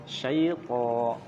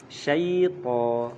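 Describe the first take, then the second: The two takes are said the same way.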